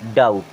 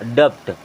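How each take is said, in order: First: The b is silent; it sounds like dout. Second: A b-like consonant is sounded before the t. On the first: The speaker calls it right. "ये होता है डाउट।" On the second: The speaker calls it wrong. "मैं इसे क्या पढ़ता था? डप्ट। लेकिन ये एक्चुअल में डप्ट नहीं होता है"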